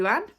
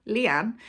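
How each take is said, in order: First: "Luann" said as LOO-ann, puzzled; "Luann" blurted, confused, as a slip; wrong name. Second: "Leanne" said as LEE-ann, correcting yourself; "Leanne" as a self-correction; correct name. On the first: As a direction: mispronounce it as "Luann" with a questioning rise. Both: Real, not acted. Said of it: "Who the hell is Luann?".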